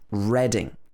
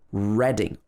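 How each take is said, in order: First: The first syllable sounds like 'red'. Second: The first syllable sounds like 'red'.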